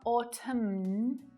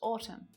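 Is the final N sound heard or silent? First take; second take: heard; silent. First: The final N sound is pronounced. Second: The final N sound is left out. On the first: The speaker calls it wrong. "It's not autumn" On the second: The speaker calls it right. "just autumn"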